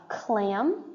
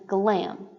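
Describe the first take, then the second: First: Clam begun with a k sound; "clam", opening on k rather than g. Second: Glam begun with a voiced g; "glam", opening on g rather than k. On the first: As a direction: say "clam" with a voiceless k at the start. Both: Shown as a demonstration. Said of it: "the k and the g".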